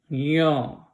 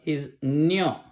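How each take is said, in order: First: It begins with a plain 'y' sound. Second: It begins with a nasal 'ny' sound. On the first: This is how Bengali speakers say it. "It's a ya and it's not a nya" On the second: This is how most Indian languages say it. "In all other Indian languages, ... the last one, is nyo"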